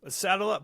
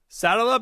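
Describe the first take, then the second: First: It has only a mild Southern accent. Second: It has a strong, energetic Southern accent. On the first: The speaker calls it wrong. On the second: The speaker calls it right.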